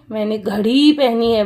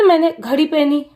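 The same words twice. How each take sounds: First: मैंने घड़ी पहनी है with घड़ी stretched on its final ee; long ee in घड़ी. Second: मैंने घड़ी पहनी with घड़ी cut short; wrong short vowel. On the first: Teacher shows what children do say, long घड़ी. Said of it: "बोलते हो ना". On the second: Teacher shows what children don't say, short घड़ी. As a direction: rush past a short final vowel in घड़ी. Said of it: "आप ऐसे नहीं बोलते ना". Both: Shown as a demonstration.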